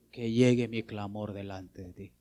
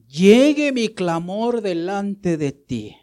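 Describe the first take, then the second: First: Said in the usual way. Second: Slow, louder and higher, stretching "Llegue"; slow pleading recital. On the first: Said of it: "¿Y qué pedía?". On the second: Shown as a demonstration. Preacher quoting the psalm to the church, slow loud plea. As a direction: cry it out slowly like the psalmist.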